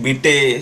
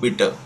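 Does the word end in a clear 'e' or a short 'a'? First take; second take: clear e; short a. First: The word ends in a clear 'e' vowel. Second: The word ends in a short 'a' vowel. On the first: The speaker calls it wrong. "डांके, बिटे, स्ट्रासे असं नाही म्हणायचं आहे" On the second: The speaker calls it right. "ई म्हणजे"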